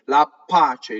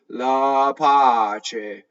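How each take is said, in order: First: The p sound is held long and doubled. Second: The p sound is short and single. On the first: The speaker calls it wrong. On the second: The speaker calls it right.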